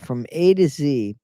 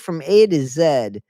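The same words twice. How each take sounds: First: The letter Z is said as "zee." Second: The letter Z is said as "zed."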